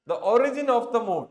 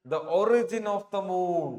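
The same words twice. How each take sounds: First: "The origin of the moon" said louder and slowly, "origin" stressed; teacher hammers home the correct subject, slow and loud; emphatic answer. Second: Said in the usual way. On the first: Shown as a demonstration. Teacher confirms the right option to students, loud and slow. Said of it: "C". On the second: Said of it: "പിന്നെ ഏതാണ്?".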